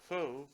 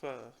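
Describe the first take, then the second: First: The word sounds the way its spelling suggests. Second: The word does not sound the way it's spelled. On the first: The speaker calls it wrong. "that's how you would think to pronounce it" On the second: The speaker calls it right. "it's called pho"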